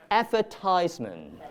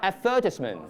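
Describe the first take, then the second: First: It is said in an American accent. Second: It is said in a British accent.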